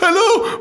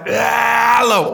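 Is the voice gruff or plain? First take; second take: plain; gruff. First: It is said in a plain normal voice. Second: It is said in a gruff, rough voice.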